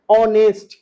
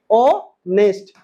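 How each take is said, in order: First: ऑनेस्ट said with a silent h, starting on the o; say it right. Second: ऑनेस्ट stretched out very slowly, silent h; slow model. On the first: Teacher showing students how ऑनेस्ट sounds, silent h. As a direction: model ऑनेस्ट as "onest", no h sound. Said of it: "इसको पढ़ते हैं क्या?". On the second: Teacher repeating ऑनेस्ट slowly so students catch the silent h. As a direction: draw ऑनेस्ट out syllable by syllable, starting on the o. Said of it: "क्या पढ़ते हैं?". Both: Shown as a demonstration.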